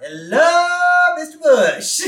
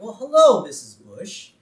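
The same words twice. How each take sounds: First: High, drawn-out hollered greeting; loud calling out. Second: Sing-song greeting. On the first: Bart interrupts Bush typing memoirs, high hollered hello. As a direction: holler a pestering kid's hello. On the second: Bart greets Missus Bush outside, sing-song cheeky. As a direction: greet her like a cheeky kid. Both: Acted.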